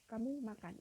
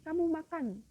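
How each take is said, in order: First: It is said with statement intonation. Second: It is said with command intonation.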